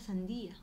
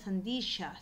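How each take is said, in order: First: No consonant is heard before the final vowel. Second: A y-like consonant is heard before the final vowel. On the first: The speaker calls it right. "en verdad era sandía" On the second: The speaker calls it wrong. "los fruteros decían sandilla"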